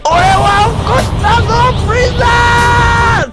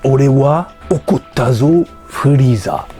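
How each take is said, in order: First: It is said in a furious, angry voice. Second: It is said calmly, without anger.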